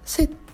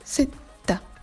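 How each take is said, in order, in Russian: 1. Произносится на классическом арабском, заканчивается на согласный. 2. Произносится на египетском арабском, заканчивается на гласный. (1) "«Бель-фусха» на классическом" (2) "«Бель-масри» на египетском"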